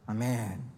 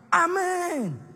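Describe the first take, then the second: First: It is said flatly, without energy. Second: It is said with fiery, strong energy.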